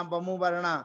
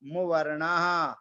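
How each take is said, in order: First: "बमु वर्णा" run together as one wrong word; wrong pronunciation. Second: "मुवर्णः" slowly, syllables split, final visarga clear; correct pronunciation. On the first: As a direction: show the common mistake "बमु वर्णा". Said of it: "तो बमु वर्णा नहीं बोलना है". (गलत उच्चारण "बमु वर्णा") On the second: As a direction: model the right "मुवर्णः" slowly. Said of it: "इसका उच्चारण ध्यान से करना है". (सही उच्चारण "मुवर्णः" धीरे-धीरे) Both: Shown as a demonstration.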